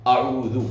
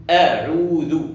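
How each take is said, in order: First: أعوذ with a heavy, thick opening vowel; wrongly thickened hamza. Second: أعوذ with a thin, light opening hamza. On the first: Teacher shows the common slip, أعوذ with thickened hamza. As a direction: darken the first hamza of أعوذ. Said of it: "على نطق الهمزة هكذا مفخمة". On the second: Teacher models the correct recitation, أعوذ with a light hamza. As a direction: slowly say أعوذ, keeping the first vowel thin. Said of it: "ليس أ". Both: Shown as a demonstration.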